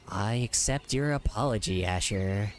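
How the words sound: It is said in a creepy voice.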